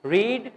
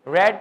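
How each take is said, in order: First: "ریڈ" with a long ee, like reed; first-form pronunciation. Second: "ریڈ" with a short e, like red; second-form pronunciation. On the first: Teacher demonstrating first form to students, "ریڈ" as "reed". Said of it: "اس کی pronunciation first form کی different ہے". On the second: Teacher demonstrating second form to students, "ریڈ" as "red". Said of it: "second اور third کی pronunciation equal ہے". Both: Shown as a demonstration.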